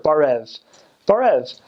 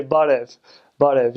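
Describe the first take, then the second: First: Barev with a hard American r, as in "bar-ev". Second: Barev with a lightly tapped r, like "bah-dev"; Armenian barev. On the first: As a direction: say barev with a thick English er sound. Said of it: "with er, ... don't do that. That's gross". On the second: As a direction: tap the r in barev after an open ah. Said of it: "Like, with vowels". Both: Shown as a demonstration.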